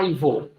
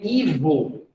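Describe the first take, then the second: First: The first vowel sounds like 'eye'. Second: The first vowel sounds like 'ee'. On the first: "por causa da fonética do I em inglês" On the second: "o nome Ivo"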